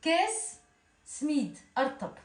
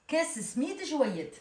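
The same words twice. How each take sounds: First: « Kes smid » à la tunisienne, débit normal; accent tunisien. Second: « Kes smid joyet » très lent, en appuyant sur « Kes »; détacher lentement « Kes smid joyet » à la tunisienne; accent tunisien lent. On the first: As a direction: dire « Kes smid » en dialecte tunisien, naturellement. (« Kes smid » en accent tunisien) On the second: (« Kes smid joyet » lent, accent tunisien) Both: Shown as a demonstration. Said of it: "On sent l'accent tunisien".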